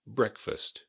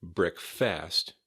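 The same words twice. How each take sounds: First: "breakfast" as BREAK-fist, first syllable higher, second reduced; stress on first syllable. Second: "breakfast" wrongly said break-FAST, full vowel in "fast"; weight on second syllable. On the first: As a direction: hit BREAK in "breakfast", swallow the vowel after it. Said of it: "Emphasis on the first syllable". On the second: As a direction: give the end of "breakfast" a full, open A. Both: Shown as a demonstration.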